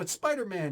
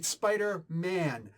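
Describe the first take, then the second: First: Spider and Man are run quickly together. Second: A small break separates Spider and Man. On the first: The name is treated as one word. The speaker calls it wrong. "You said that a little bit fast, like it's a compound word" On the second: The name is two parts joined by a hyphen. The speaker calls it right. "There's a hyphen in between"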